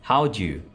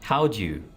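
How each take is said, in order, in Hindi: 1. शब्द घटाकर और आपस में जोड़कर बोले जाते हैं। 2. शब्द घटाकर और आपस में जोड़कर बोले जाते हैं।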